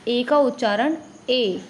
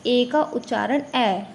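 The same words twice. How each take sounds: First: Final "ए" as a close, long ay; letter A as ay. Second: Final "ए" as an open ae; letter A as open ae. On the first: Teacher shows the sound of A in day, final "ए" as long ay. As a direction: say the last "ए" like the vowel in day. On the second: Teacher shows the sound of A in fan, final "ए" as open ae. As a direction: say the last "ए" like the vowel in fan. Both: Shown as a demonstration.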